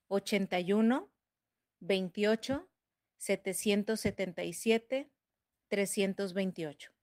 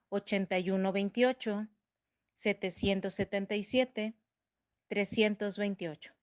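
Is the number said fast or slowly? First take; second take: slowly; fast. First: The number is said slowly. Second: The number is said fast.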